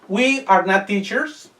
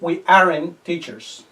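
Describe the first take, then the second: First: All words are said in full, uncontracted. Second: The verb and not are joined as aren't.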